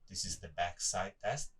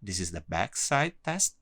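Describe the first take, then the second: First: The voice sounds quieter and more distant. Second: The voice sounds louder and clearer. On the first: "you should hear a lower voice because uh, the microphone on this side is off" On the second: "my voice uh, uh, would be clearer than Lorenzo's one"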